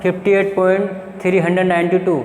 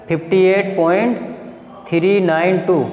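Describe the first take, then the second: First: Decimal part read as one number, three hundred ninety two; the wrong reading, with "three hundred ninety two" said as a whole number after point. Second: After point say each digit apart, "three nine टू"; the right reading, with "three nine टू" spoken digit by digit; teacher's model of the right reading, "three nine टू" as separate digits; digits read one by one. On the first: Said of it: "तो इसको ऐसे नहीं पढ़ना". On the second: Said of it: "उनको एक एक करके पढ़ना है". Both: Shown as a demonstration.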